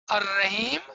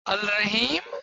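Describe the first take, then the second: First: The L is silent and merges into R. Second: The L sound is pronounced before Rahim. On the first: This is how it is said aloud. "there's a different way of saying it" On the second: This is how it is written. "There's a different way of writing it"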